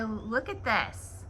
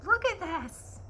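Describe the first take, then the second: First: Slow quiet look at this. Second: "Look at this" leaps up high in a cooing pet voice. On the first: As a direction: stretch "look at this" out slowly. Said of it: "look at my". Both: Real, not acted.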